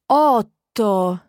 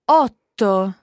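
First: The word is said very slowly and drawn out. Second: The word is said at normal speed.

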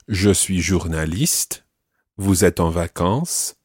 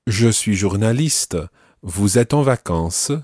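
First: The silent word endings are dropped. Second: The silent word endings are almost pronounced.

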